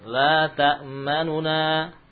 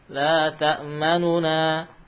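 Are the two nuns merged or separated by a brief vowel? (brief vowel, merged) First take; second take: brief vowel; brief vowel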